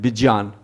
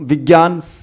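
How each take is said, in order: First: The cluster is said with a j-sound. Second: The cluster is said with a g-sound. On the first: This is closer to the Sanskrit rule. The speaker calls it right. "Maharashtra वाले इसको विज्ञान बोलते हैं" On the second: This is the common usage in North India. The speaker calls it wrong. "उत्तर भारत में पता नहीं क्यों विज्ञान जो है प्रचलन में आ गया है"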